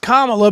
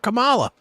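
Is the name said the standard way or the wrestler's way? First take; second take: standard; wrestler's. First: The name is said with its standard pronunciation. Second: The name is said like the wrestler's name. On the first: The speaker calls it right. "It's Kamala" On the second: The speaker calls it wrong. "like the big fat goofball that was Kamala"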